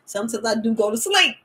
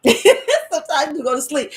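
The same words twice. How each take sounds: First: Said in the usual way. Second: Louder, laughing through the line; laughing repeat. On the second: Real, not acted.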